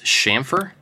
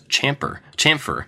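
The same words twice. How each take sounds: First: The word begins with an 'sh' sound. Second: The word begins with a 'ch' sound. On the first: The speaker calls it right. "It's a sh sound" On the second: The speaker calls it wrong. "I always just assumed it's a CH"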